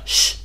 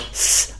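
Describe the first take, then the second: First: The S is made with the tongue pulled back. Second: The S is made with the tongue forward. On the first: "but S" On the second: "not S"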